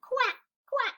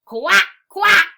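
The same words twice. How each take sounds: First: Small, high little quacks; quiet duck quack. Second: High, very loud quacks; loud duck quack. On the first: Duck after the farmer's scolding, small high quacking. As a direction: quack daintily without the volume. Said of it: "they quietly made their noises". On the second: Teacher reads the noisy duck to children, loud high quacking. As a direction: quack it out at full volume. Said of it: "went the duck". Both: Acted.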